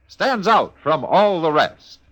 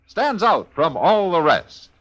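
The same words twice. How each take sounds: The two takes are said the same way.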